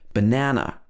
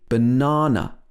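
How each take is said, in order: First: It is said in an American accent. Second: It is said in a British accent. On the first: "in the American accent where we would say banana" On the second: "in the British accent, it'd be banana, ah, with opening your mouth nice and wide"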